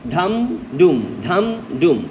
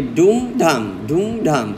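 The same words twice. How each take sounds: First: ধাম ডুম beaten out in pairs, ধাম rising and ডুম dropping; drumbeat stress pattern. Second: ডুম ধাম beaten out in pairs, starting on ডুম, slightly lower; reversed drumbeat pattern. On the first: Teacher imitating a parade drum, ধাম ডুম in a steady two-beat rhythm. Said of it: "stress unstress আবার কেমন?". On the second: Teacher offering the other parade beat, ডুম ধাম in a lower two-beat rhythm. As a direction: chant ডুম ধাম as two even drum strokes. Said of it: "ঢুল বাড়ি দেয়". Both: Shown as a demonstration.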